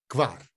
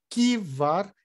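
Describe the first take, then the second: First: The k and v are said together, no vowel. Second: A vowel sound separates the k and the v. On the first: The speaker calls it right. "Tem que falar o K com V junto" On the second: The speaker calls it wrong. "Se colocar, danou, errou"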